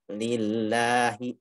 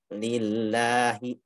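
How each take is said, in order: First: The vowel after the lam is a clear a. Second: The same.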